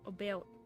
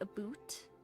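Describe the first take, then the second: First: The vowel falls halfway between 'ow' and 'oo'. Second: The vowel sounds like 'oo', as in 'boot'. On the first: "it's like halfway between about and aboot" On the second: "they'll say aboot"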